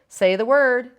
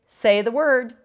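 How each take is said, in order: No difference in how they are said.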